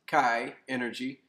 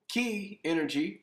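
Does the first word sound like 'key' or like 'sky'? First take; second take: sky; key. First: The first word has an 'eye' vowel, like 'sky'. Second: The first word has an 'ee' vowel, like 'key'.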